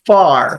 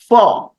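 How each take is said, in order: First: It is said with an American accent. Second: It is said with a British accent. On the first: "It is American, right?" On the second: "if I want to say it in a British way"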